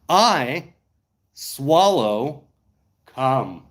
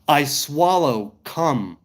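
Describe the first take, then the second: First: The phrase is spoken more slowly. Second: The phrase is spoken at a normal pace. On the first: "You want me to do it again a bit slower?" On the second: "let me say this properly"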